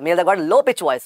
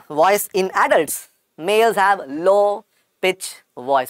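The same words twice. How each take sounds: First: Said in the usual way. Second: Slow, deliberate dictation pace. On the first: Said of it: "repeats the note normally". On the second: Shown as a demonstration. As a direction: spell it out slowly for note-taking. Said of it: "dictating notes to students".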